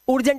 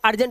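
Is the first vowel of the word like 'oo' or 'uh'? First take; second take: oo; uh. First: The first vowel sounds like 'oo'. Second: The first vowel sounds like 'uh'. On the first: The speaker calls it wrong. "इसलिए ये उर्जेंट नहीं होता" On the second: The speaker calls it right. "ये अर्जेंट होता है"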